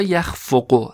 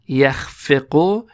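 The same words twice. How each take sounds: First: یخفق said "yakh-FO-qo", with an o after f; damma on the middle consonant. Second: یخفق said "yakh-FE-qo", with an e after f; kasra on the middle consonant. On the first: Teacher giving two verb forms, second with damma: "yakhfoqo". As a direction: slowly sound out یخفق with a short o on the f. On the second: Teacher giving two verb forms, first with kasra: "yakhfeqo". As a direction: slowly sound out یخفق with a short e on the f. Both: Shown as a demonstration. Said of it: "مضارعش بر وزن یفعل و یفعل".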